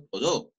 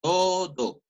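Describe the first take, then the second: First: "todo" said as to-DÓ, stress on the last syllable; quick "todo" with the accent shoved onto the end; wrong final stress. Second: "todo" with a long, high TO, falling on do; correct first-syllable stress. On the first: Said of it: "Yo nunca digo todo". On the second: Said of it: "Yo nunca digo todo, no". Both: Shown as a demonstration.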